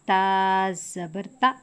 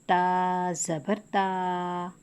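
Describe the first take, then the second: First: The final vowel is cut off abruptly. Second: The final vowel is drawn out long. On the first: "झटका करके पढ़ने से हुर्फ तब्दील हो जाएगा। जैसे" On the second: "खींचने पे"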